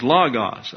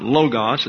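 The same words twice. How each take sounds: First: "logos" with an open ah: LAH-gos; short-O pronunciation. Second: "logos" with a long O: LOH-gos; long-O mispronunciation. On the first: Preacher corrects "logos" for the class, short ah. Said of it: "for a short O is ah". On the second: Preacher rejecting the common "logos", long O. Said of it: "So it's not logos". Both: Shown as a demonstration.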